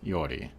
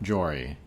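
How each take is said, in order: First: The name starts with a vowel sound. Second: The name starts with a J sound. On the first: The speaker calls it right. "So it's a silent J" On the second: The speaker calls it wrong. "Not Jory"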